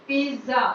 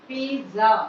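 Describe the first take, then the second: No difference in how they are said.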